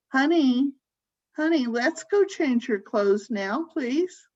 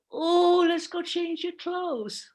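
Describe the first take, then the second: First: Mildly sugary caregiver coaxing; slightly raised, cooing endearment; baby talk. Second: Put-on high, drawn-out baby-talk lilt; sing-song high caregiver voice; higher pitch. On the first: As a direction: lightly coax as if to a small child, pitch lifting at the ends. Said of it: "when you're talking baby talk". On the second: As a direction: coo it slowly, far above your normal voice. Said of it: "go into a higher pitch". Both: Shown as a demonstration.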